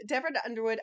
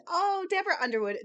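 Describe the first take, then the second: First: Said in the usual way. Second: High, louder burst of delight at a favourite author's name; real excitement, "Deborah Underwood" sung up high; delighted recognition. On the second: Real, not acted. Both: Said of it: "another personal favorite of mine".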